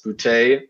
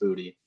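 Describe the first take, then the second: First: The name is said with an exaggerated French sound. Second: The name is said with a plain English sound. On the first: "I've exaggerated the Frenchness of it" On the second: "he'd probably say, oh, it's just Booty"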